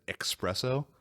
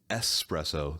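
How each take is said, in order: First: It is said with a ks sound: expresso. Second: It is said with a plain s sound: espresso. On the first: The speaker calls it wrong. "I never realized that I said espresso" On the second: The speaker calls it right. "I think espresso sounds better, but it sounds pretentious"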